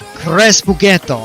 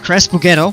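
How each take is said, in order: First: It is said in an Italian accent. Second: It is said in a plain English accent.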